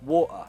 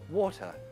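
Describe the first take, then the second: First: The T is a stop in the throat. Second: The T is crisp, tongue behind the teeth. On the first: It can sound uneducated. "Glottal tea" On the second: It sounds very posh and upper class. "a very posh T"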